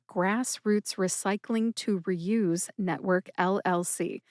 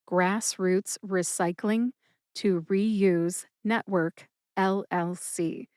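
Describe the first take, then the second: First: It is said at normal speed. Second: It is said more slowly.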